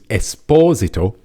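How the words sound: The name is said the Italian way. The name comes from an Italian family. The speaker calls it right. "his surname is Esposito ... because he is uh, Italian"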